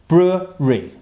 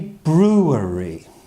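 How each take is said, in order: First: It is said quickly with syllables run together. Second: All syllables are said slowly and fully.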